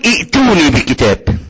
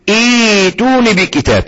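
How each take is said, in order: First: The word starts with a glottal stop before the vowel. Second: The word starts with a long vowel, no glottal stop. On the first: The speaker calls it wrong. "عمرك ما هتقول ائتوني بكتاب" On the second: The speaker calls it right. "عندما تبدأ تقول ايتوني بكتاب. في الحالة دي بقت مد ايه يا اخوانا؟ مد بدل"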